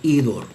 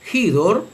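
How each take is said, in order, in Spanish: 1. La palabra empieza directamente con una vocal. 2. La palabra empieza con un sonido h aspirado. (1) "reocliniana simplemente se lee idor" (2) "en la pronunciación erasmiana se lee hidor"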